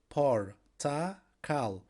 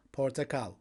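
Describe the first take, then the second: First: "Portakal" slowly split, por, ta, kal; syllable by syllable. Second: Said in the usual way. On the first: Shown as a demonstration. Teacher showing learners the word for orange, "Portakal" syllable by syllable. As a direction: pause between each syllable of "Portakal".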